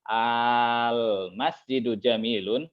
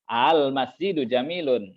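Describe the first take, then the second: First: The opening vowel is drawn out long. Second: The opening vowel is kept short and eased.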